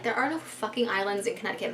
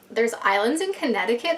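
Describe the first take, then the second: First: Inner thought. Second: Puzzled question. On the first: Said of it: "That's, like, what I'm thinking". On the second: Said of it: "That's what I told her". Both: Retold or imitated.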